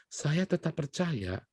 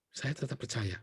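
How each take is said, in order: First: Said in the usual way. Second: Hushed repeat, much softer; whispered-down affirmation; soft echo. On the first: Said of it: "repeated conviction, first take". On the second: Shown as a demonstration. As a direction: drop the voice to a quiet echo of the conviction. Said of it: "repeated conviction, hushed second take".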